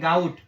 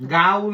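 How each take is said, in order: First: The word ends with a clear t sound. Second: The word ends without a final t sound. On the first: The speaker calls it right. "ગાઉ નહીં ગાઉટ" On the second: The speaker calls it wrong. "ગાઉ નહીં"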